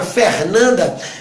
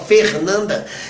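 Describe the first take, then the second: First: The vowels in the name are open. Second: The vowels in the name are closed. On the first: This is how it sounds where the speaker is from. "eu falo aqui mais aberto" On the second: This is how it sounds in the south of Brazil. "no sul já fala"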